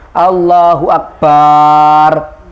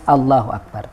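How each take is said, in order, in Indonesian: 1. Vokal setelah b dipanjangkan. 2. Suku kata dengan b diucapkan pendek dan biasa. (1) "tidak boleh memanjangkan ba pada kata akbar. Misalnya Allahu Akbar, tidak sah" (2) "tapi harus Allahu Akbar"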